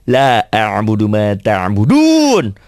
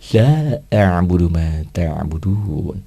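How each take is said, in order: First: Each sound is struck with a forceful, clipped jolt. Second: It is said softly and feelingly, like gentle coaxing. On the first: Only the tongue's articulation matters, not the meaning. "Dengan teori hentak" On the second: The reciter conveys understanding of the meaning. "Itu kan puisi"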